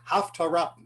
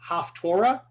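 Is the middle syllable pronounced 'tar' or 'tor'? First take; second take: tar; tor. First: The middle syllable sounds like 'tar'. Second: The middle syllable sounds like 'tor'.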